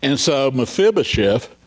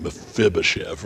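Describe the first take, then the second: First: Said in the usual way. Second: Mephibosheth rolled out lower and softer; savoring the name. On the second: Shown as a demonstration. Preacher relishing the name, lower and softer. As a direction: let Mephibosheth roll off the tongue. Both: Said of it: "just sort of rolls off the tongue".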